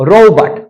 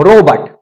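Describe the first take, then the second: Both takes have the same delivery.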